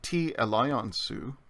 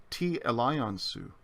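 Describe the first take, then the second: First: "Ti elaion su" said slowly, "ti" unstressed, gently rising; "Ti elaion su" as was any oil made; unaccented ti. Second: "Ti elaion su" slow, "Ti" stressed, falling end; "Ti elaion su" asking what oil; accented ti. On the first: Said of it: "with T without the accent". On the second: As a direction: stress "Ti" and let "Ti elaion su" fall. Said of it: "But if we add the accent". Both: Shown as a demonstration.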